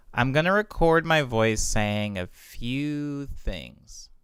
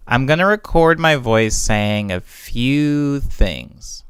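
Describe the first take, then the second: First: Big reverb, all wet, no dry; drenched in reverb. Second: Said in the usual way. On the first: Shown as a demonstration. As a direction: voice washed in a wet reverb tail. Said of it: "and I turn up the wet". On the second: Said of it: "this is what my voice sounds like".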